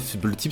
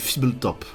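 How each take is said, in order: First: The last syllable has the vowel of 'tip'. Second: The last syllable has the vowel of 'top'. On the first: The speaker calls it wrong. "c'est pas Fibletip" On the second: The speaker calls it right. "C'est comme ça que ça se prononce"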